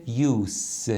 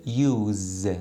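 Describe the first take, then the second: First: یوس said with a hissing s at the end; pronunciation demo. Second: یوز said with a voiced z at the end; pronunciation demo. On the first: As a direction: end یوس on a sharp s sound. (یوس با صدای s در آخر) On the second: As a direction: end یوز on a buzzing z sound. (یوز با صدای z در آخر) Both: Shown as a demonstration.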